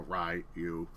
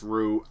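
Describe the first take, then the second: First: The name is said as two syllables. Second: The name is said as one syllable. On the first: "Rai and then U" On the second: "Some say it's Ru"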